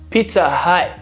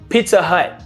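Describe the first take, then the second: Both takes have the same delivery.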